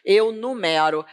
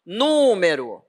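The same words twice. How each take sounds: First: "Eu numero" with stress on "ME", nu-ME-ro. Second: "Número" said slowly with weight on the first syllable "NÚ"; stressed "Número". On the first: Teacher contrasting the verb with the noun, stressed. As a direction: say "numero" stressing the middle syllable. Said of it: "Eu numero os livros". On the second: Teacher modelling the accented noun for students, slow. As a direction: draw out "Número", hitting "Nú" hard. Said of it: "tem acento agudo no U". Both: Shown as a demonstration.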